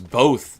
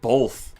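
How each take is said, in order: First: The word is said without an L sound. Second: The word is said with an L sound. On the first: The speaker calls it right. "there's no L. It's both" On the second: The speaker calls it wrong. "not both"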